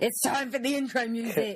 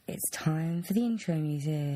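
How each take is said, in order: First: It is shouted out loudly. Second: It is said at a normal, quiet level.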